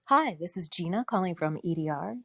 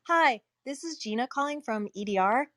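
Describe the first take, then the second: First: It is said in a sultry, seductive voice. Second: It is said in a plain, ordinary voice.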